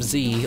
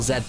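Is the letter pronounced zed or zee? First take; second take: zee; zed. First: The letter is said as zee. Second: The letter is said as zed. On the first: "the American" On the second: "the British pronunciation"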